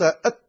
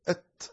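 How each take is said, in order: First: The final t is held without a breath release. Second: The final t is released with audible breath. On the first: The speaker calls it wrong. "لو أنك نطقت أت لم يخرج الحرف" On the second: The speaker calls it right. "لكنك تنطق أت أت، فهذا هو الهمس"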